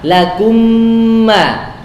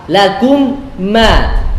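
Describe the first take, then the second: First: The two m sounds merge into one. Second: The two m sounds are articulated separately. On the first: "mereka idghamkan sehingga kerja lidah atau kerja makhraj hanya sekali saja" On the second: "dua kali kerja, itu izhar"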